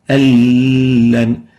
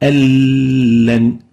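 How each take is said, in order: First: The n merges into a doubled l. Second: The n merges into a doubled l.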